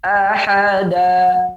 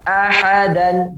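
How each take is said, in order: First: The word ends with a lengthened vowel. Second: The word ends with an n sound.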